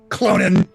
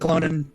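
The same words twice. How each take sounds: First: The name is said in a sharp, acerbic tone. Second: The name is said in a neutral tone.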